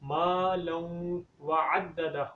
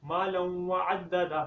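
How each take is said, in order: First: The vowel after the m is long. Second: The vowel after the m is short. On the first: The speaker calls it right. "मीम को एक अलिफ के बराबर लंबा करना है" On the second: The speaker calls it wrong. "मीम को लंबा नहीं करते"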